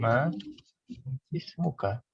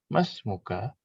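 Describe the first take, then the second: First: The two words are separated, with the i sound. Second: The words run together, and the i sound is dropped. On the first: The speaker calls it wrong. "Aslinya ma ismuka" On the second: The speaker calls it right. "bacanya langsung mas muka"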